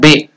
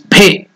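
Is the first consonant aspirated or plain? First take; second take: plain; aspirated. First: The b is said plain, without a breath. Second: The b is said with a strong breath. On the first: The speaker calls it wrong. "It is not Be" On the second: The speaker calls it right. "So that Bhe is Mahaprana. You have to use more energy"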